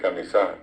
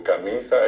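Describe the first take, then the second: First: "camisá" stressed on the final A; stress on last syllable of CAMISÁ. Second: "camisa" stressed on MI; stress on middle syllable of CAMISA. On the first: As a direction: say "camisá" the Guaraní way, SÁ strong. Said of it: "el guaraní estira al final". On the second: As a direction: say "camisa" with Castilian penultimate stress. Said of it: "acento llano". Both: Shown as a demonstration.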